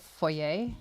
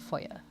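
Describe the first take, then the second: First: It is said with the British pronunciation. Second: It is said with the American pronunciation. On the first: "here it's a foyer" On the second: "in South Africa, it's a foyer. And I think that's the American pronunciation"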